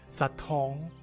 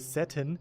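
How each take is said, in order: First: It is said with a French-sounding pronunciation. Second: It is said with a plain English pronunciation. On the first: The speaker sounds sophisticated. The speaker calls it right. "you say satin ... just makes it sound a bit more French" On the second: The speaker sounds ordinary. The speaker calls it wrong. "you don't say satin"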